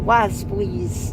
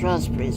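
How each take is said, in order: First: The word starts with a w sound. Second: The word starts with an r sound. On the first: "I pronounce things with an R with a W instead" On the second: "As opposed to when else it's raspberries"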